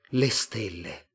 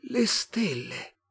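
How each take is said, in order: First: Understated, drawn-out wonder; hushed wonder. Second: High, very slow alien voice; otherworldly, drawn-out wonder; Martian. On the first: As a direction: say it slowly, struck by the sky. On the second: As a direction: echo it in a stretched, high Martian voice. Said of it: "disse il marziano". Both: A narrator's reading.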